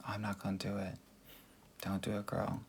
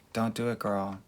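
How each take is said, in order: First: Much softer, almost to herself; quiet. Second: Said in the usual way. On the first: Shown as a demonstration. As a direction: drop the voice and say it softly.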